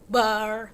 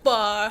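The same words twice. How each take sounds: First: The final R is pronounced clearly. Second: The final R is soft and barely heard. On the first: "it speaks clearly" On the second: "the the R is not really that clear"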